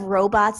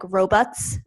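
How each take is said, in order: First: Said in the usual way. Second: "robots" as "ro-butts"; Philly "robots". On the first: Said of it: "instead of robots". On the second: Shown as a demonstration. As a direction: weaken the second vowel of "robots" to "buts". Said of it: "they'll be like".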